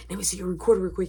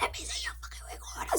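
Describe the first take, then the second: First: Said in the usual way. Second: Fast, forceful whisper; hushed, exasperated demand; urgent whisper. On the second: Retold or imitated. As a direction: whisper it impatiently so nobody overhears. Urgent repeat, hiding from mom.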